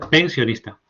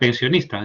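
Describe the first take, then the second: First: The stress is on the first syllable. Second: The stress is not on the first syllable. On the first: "está dicha pensionista" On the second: "no está dicha pensionista"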